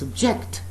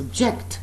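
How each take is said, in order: First: It carries the verb stress pattern. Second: The same.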